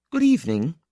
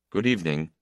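First: High-pitched woman's good evening; parting greeting, pitched well up. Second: Understated male good evening; man's subdued reply. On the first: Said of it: "she said at the turning". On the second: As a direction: answer simply, without lift. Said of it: "he said". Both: A narrator's reading.

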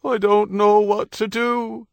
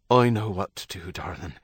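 First: High, loud, slow helpless wail. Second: Steady, soothing husband, in an ordinary pitch; calm reassurance. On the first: Wife in labour to her husband, helplessly wailing. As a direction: wail it out in panic, drawn out. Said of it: "she wailed". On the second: Husband steadying his wife in labour, calmly reassuring. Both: A narrator's reading.

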